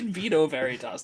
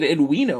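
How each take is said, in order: First: Vino begins with a v sound. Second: Vino begins with a w sound. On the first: The speaker calls it wrong. "they didn't say" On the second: The speaker calls it right. "They said"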